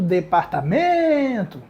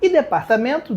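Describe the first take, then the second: First: "departamento" slowed, stress on "men"; slow syllable split. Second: Said in the usual way. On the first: Shown as a demonstration. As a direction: break "departamento" into syllables for the class. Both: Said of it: "mais uma paroxítona".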